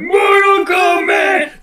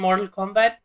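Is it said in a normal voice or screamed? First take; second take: screamed; normal. First: It is screamed loudly with high energy. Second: It is said in a normal speaking voice.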